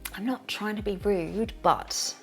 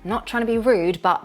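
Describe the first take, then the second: First: It is said in a soft, gentle tone. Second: It is said in a flat, even tone. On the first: The speaker is being apologetic. "If it is said gently, it might sound apologetic" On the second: The speaker is giving a warning. "If it is said flatly, it's more of a warning"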